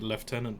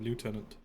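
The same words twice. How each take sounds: First: It is said with an F sound. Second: It is said without an F sound. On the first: This is the newer way some people say it. "they started announcing it lieutenant as well" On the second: This is the older way it was said. "instead of lieutenant"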